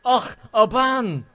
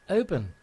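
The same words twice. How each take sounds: First: Loud, high, drawn-out mock Scottish accent; imitated Scottish farmer. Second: Said in the usual way. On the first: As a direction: exclaim like a Scottish farmer finally catching on. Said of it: "it was like some farmer guy". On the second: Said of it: "And I said".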